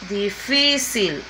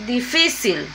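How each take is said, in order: First: "Difícil" said very slowly, holding the FI; slow the word down and dwell on FI in "Difícil"; stretched penultimate stress. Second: Said in the usual way. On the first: Shown as a demonstration. Teacher repeating the example by syllables, slow stressed FI in "Difícil". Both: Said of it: "Última y penúltima sílaba".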